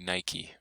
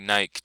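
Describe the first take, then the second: First: The word ends with an 'ee' sound. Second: The word is said to rhyme with bike. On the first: The speaker calls it right. "You say Nike" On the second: The speaker calls it wrong. "you don't say Nike just because it rhymes with bike"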